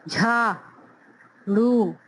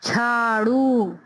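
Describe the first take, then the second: First: झाड़ू stretched long, breathy झ; very slow model reading. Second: झाड़ू slow, झ as one breathy sound; drawn-out झाड़ू; slow model reading. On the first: Teacher repeating झाड़ू very slowly. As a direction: linger on every sound of झाड़ू. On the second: Teacher modelling झाड़ू. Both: Shown as a demonstration. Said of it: "झाड़ू यानी कि त".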